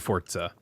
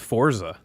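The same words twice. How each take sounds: First: The z is sounded as a ts. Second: The z is sounded as a plain z. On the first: "If the word is German, then yeah, I think it would be Forza. ... Z's are pronounced like T's" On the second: "I thought it was just Forza"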